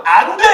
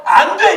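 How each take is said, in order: First: God's firm refusal, said a bit louder; a flat, firm "안 돼" from above. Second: Higher, louder booming "안 돼"; God cutting in with a stern refusal; God's stern no. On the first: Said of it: "뭐라고 말한 거냐면". (단호하게 "안 돼") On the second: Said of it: "하나님이 갑자기 나타나서". (하나님이 높고 크게 단호히 "안 돼") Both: Retold or imitated.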